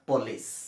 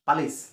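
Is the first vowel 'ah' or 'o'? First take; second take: o; ah. First: The first vowel is a rounded 'o' sound. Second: The first vowel is an open 'ah' sound. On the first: The speaker calls it right. "আচলতে এইটো পলিচ" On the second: The speaker calls it wrong. "যিটো আমি ভুলকৈ কওঁ"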